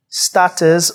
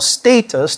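First: It is said with a British English pronunciation. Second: It is said with an American English pronunciation. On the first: "depending on your English or American" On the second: "depending on your English or American"

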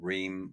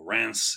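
First: The name has an anglicized English pronunciation. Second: The name has a French pronunciation.

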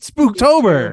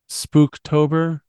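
First: It is said with lively excitement. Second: It is said flatly, without excitement.

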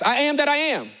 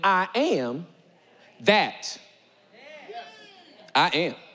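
First: The phrase is said quickly without a pause. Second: The phrase is said slowly with a pause. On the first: The speaker calls it wrong. "You read it too fast" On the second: The speaker calls it right. "y'all didn't hear the swag in it till I slowed it down for you"

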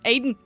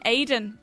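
First: The name is said through the nose, nasally. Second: The name is said plainly, without nasal tone. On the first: The speaker calls it wrong. "You're saying Aidan" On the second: The speaker calls it right. "you're not saying Aidan"

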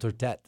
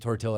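First: The word ends with an et-like sound. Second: The word ends with an eel-like sound. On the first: The speaker calls it right. "It's called tortette" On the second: The speaker calls it wrong. "I just said it wrong"

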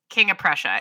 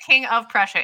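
First: The words are run together like one word. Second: Each word is said separately and clearly. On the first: The speaker calls it right. "people just run it in one word" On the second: The speaker calls it wrong. "you don't say King of Prussia"

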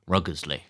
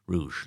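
First: The name has an s sound in the middle. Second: The name has no s sound in the middle. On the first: The speaker calls it wrong. "I thought I had an S in it" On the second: The speaker calls it right. "I've learned how to pronounce that very recently"

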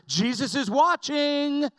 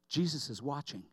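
First: It is said loudest of all. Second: It is said softly.

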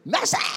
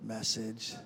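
First: It is shouted very loudly. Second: It is said louder.

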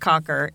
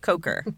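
First: The first vowel is a short 'o' sound. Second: The first vowel is a long 'o' sound. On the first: The speaker calls it wrong. "It's not Cocker" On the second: The speaker calls it right. "It's Coker"

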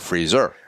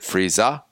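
First: The final R is pronounced clearly. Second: The final R is dropped, New England style.

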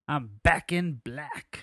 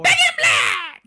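First: It is said calmly, without a scream. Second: It is screamed loudly, like an AC/DC scream.

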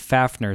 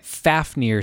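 First: The last syllable is said with an 'er' sound. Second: The last syllable is said with an 'eer' sound. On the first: The speaker calls it wrong. "as opposed to" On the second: The speaker calls it right. "IR instead of ER"

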